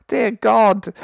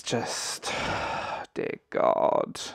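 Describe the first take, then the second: First: Laughing dear God, high and loud. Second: Exasperated whisper. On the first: Vlogger cracking up at the show's excuses, laughing. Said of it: "I'm trying not to cry with laughter". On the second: Exasperated sigh at show excuses. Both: Real, not acted.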